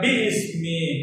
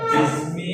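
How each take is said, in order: First: The glottal stop before ismi is pronounced separately. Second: The glottal stop drops and the words merge. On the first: The speaker calls it wrong. "ബി ഇസ്മി എന്ന് പറയാതെ" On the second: The speaker calls it right. "ബിസ്മി എന്ന് പറയുന്നത്"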